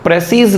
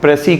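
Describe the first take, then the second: First: The word ends with an audible s sound. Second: The word ends without any s sound. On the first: The speaker calls it wrong. "प्रेसीज नहीं कहेंगे हम" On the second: The speaker calls it right. "It's last letter एस is silent"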